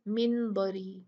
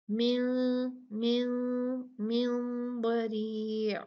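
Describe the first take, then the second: First: मिन बरी with a crisp, clear न and no nasal hold; wrong clear reading. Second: मिन held with a hidden, nasal two-count न before बरी; ikhfa with ghunna. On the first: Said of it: "ऐसे नहीं पढ़ना". (मिन बरी को साफ़ न के साथ, ग़लत तरीक़ा) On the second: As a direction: hide the न of मिन in a nasal hum. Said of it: "दो काउंट गुन्ना करना है और छुपाना है". (मिन का न छुपाकर, दो काउंट गुन्ना) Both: Shown as a demonstration.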